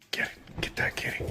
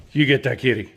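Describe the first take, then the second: First: Whisper. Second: Said in the usual way. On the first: Real, not acted. Egging on dog at cat.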